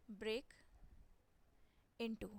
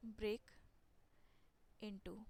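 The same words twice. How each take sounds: First: Slow word drill. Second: Slow repeat drill. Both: Shown as a demonstration.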